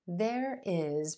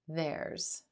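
First: It is said as two full words, 'there is'. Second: It is said as one contracted word, 'there's'. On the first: "There is becomes theirs" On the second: "becomes theirs"

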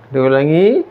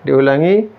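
No difference in how they are said.

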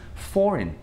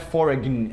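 First: The g is silent in the word. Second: The g is sounded in the word. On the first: The speaker calls it right. "Tem um G, a gente ignora" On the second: The speaker calls it wrong. "Então não é foreign"

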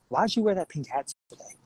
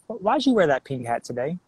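First: It sounds disapproving, like demanding removal. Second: It sounds genuinely curious about the reason.

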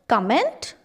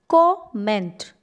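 First: The stress falls on the second syllable. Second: The stress falls on the first syllable. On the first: The speaker calls it wrong. "No, it's not comment" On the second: The speaker calls it right. "It's comment"

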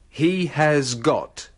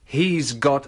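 First: Every word is said slowly and in full. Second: 'He has' is shortened to 'he's', with a z sound. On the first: "bagian pertama dari contoh tadi akan diucapkan perlahan-lahan" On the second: "Dalam percakapan sehari-hari, ungkapan itu disingkat"

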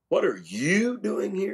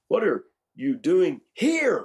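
First: The stress falls on the word you. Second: The stress falls on the word here. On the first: Of all people, this person is the one here. "of all the people in the world?" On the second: Of all places, this is the one chosen. "of all places?"

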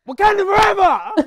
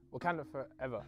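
First: It is said with passion and enthusiasm. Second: It is said flatly, with little enthusiasm.

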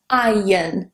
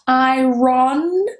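First: The R sound is left out of the word. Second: The R sound is pronounced in the word. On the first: The speaker calls it right. "The R is completely removed" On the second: The speaker calls it wrong. "Not iron"

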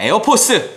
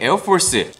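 First: It is said with a plain Korean pronunciation. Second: It is said with a rolled, English-like pronunciation. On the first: The speaker calls it right. "그냥 에어포스" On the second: The speaker calls it wrong. "이렇게 제가 가끔 이렇게 혀를 굴리는데"

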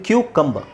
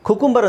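First: The word begins with a 'kyoo' sound. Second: The word begins with a plain 'koo' sound. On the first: The speaker calls it right. "But ಇದು ಕ್ಯೂಕಂಬ" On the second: The speaker calls it wrong. "ಕುಕುಂಬರ್ ಅಂತ ಹೇಳ್ತಾರೆ"

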